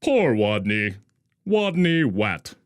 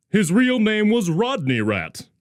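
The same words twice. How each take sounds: First: Wadney for Rodney with w sound; says w for r. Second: Said in the usual way. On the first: A narrator's reading. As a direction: say Wat with a w not r. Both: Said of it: "couldn't pronounce his R's".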